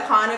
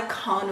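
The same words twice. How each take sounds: First: Said in the usual way. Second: خان said without the proper Urdu throaty kh; mispronounced خان. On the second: Shown as a demonstration. Joking about children who never learned Urdu, mispronounced خان. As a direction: say خان as a non-Urdu speaker would, losing the throaty kh. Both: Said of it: "وہ تلفظ نہیں آئے گا".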